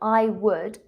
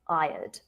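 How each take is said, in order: First: Both words are said in full. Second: The two words merge into one short syllable. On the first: The speaker calls it wrong. "I've said, I would go to Australia" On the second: The speaker calls it right. "it's more common to use a contraction"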